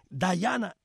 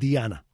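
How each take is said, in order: First: The first syllable sounds like 'dye'. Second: The first syllable sounds like 'dee'.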